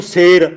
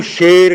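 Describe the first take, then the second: First: ਸੇਰ opens on a plain "s"; plain sassa "s". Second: ਸ਼ੇਰ opens on a hushing "sh"; dotted sassa "sh". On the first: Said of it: "ਪਰ ਸੱਸੇ ਨੂੰ ਲਾਂ". (ਸੇਰ, ਬਿੰਦੀ ਬਿਨਾਂ "ਸ" ਨਾਲ) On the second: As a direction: stress ਸ਼ੇਰ, starting with "sh" not "s". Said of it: "ਸੱਸੇ ਪੈਰ ਬਿੰਦੀ". (ਸ਼ੇਰ, ਪੈਰ ਬਿੰਦੀ ਵਾਲੇ "ਸ਼" ਨਾਲ) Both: Shown as a demonstration.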